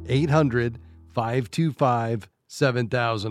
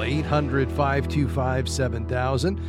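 First: It is said a little more slowly. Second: It is said at normal speed.

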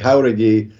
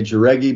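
First: The name is said the Spanish way. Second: The name is said the American English way.

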